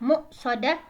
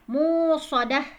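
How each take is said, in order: First: The middle has a glottal stop. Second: The middle has a long w-like u sound. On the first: "bisa dibaca dengan hamzah ya" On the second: "bisa juga dibaca dengan waw"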